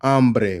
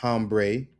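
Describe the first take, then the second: First: Hambre said ahm-breh, loud; silent H. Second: Hambre said hahm-bray; sounded H. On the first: Teacher introducing the last word, "hambre" with silent H. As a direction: open "hambre" straight on the A. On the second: Teacher showing the mistake, slow "hambre" with sounded H. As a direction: drag "hambre" slowly with an English H. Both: Shown as a demonstration. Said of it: "which is not hambre".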